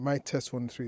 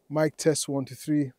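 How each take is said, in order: First: No noise reduction or filtering is applied. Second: Strong noise reduction is applied to the voice. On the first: "I'll turn off the denoiser" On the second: "high denoising"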